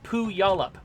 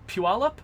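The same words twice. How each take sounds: First: The Y sound comes in the middle. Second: The Y sound comes near the start. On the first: It follows how the word looks written. The speaker calls it wrong. "it looks like it's Puyallup" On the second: It follows how the name is actually said. The speaker calls it right. "it's pronounced, I think, Puyallup. ... the Y moves in the word"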